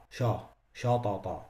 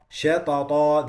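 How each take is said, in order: First: Shatata with a thick, heavy sha; heavy sheen. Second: Shatata with a light, thin sh; light sheen. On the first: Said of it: "That's wrong". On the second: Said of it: "they pronounce it". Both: Shown as a demonstration.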